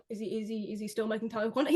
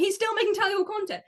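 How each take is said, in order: First: Quick, low, quiet questioning; low incredulous question; hushed disbelief. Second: High-pitched amazed realisation; high, incredulous exclamation; astonished outburst. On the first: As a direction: murmur it fast, checking you saw right. Acted disbelief on finding the channel. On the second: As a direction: burst out in disbelief, pitch jumping up. Astonished realisation, same words again. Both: Acted.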